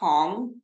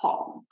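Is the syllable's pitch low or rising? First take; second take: rising; low. First: The syllable rises in pitch like a question. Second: The syllable is said on a low pitch. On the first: It means candy. "tong sounds like a question" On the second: It means sugar. "Same word but pronounced differently. Sugar is tong"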